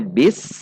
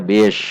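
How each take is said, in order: First: The word ends with a plain s sound. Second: The word ends with an sh sound. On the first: The speaker calls it right. "Harusnya bis" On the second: The speaker calls it wrong. "namun dibaca bish"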